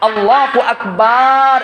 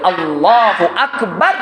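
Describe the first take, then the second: First: The final syllable 'bar' is long and drawn out. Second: The final syllable 'bar' is short, not drawn out. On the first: The speaker calls it wrong. "এই যে বার টান দিল, এই বার টান দেওয়া জায়েজ নেই।" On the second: The speaker calls it right. "আমাদেরকে বলতে হবে"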